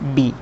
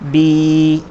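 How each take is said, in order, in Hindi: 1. स्वर छोटा है और जल्दी बोला जाता है। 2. स्वर खींचा जाता है और देर तक रखा जाता है। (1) "ज़ेर की हरकत को भी जल्दी पढ़ा जाता है, थोड़ा भी नहीं खींचा जाता" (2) "इसे थोड़ा सा खींच कर पढ़ते हैं"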